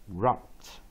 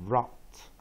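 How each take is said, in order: The two takes are said the same way.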